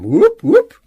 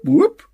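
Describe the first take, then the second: First: Two whoops sweeping very high and loud; fire alarm whoop. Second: Alarm whoop. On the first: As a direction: wail like a siren twice. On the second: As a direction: whoop sliding way up, much higher and louder. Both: A narrator's reading. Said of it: "a high, rising sound like a fire alarm".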